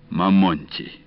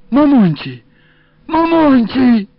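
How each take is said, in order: First: Said in the usual way. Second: High, loud keening call, drawn out at the end; wailing lament. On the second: A narrator's reading. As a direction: wail the name like a lamenting woman. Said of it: "запричитала женщина". (громкое высокое причитание)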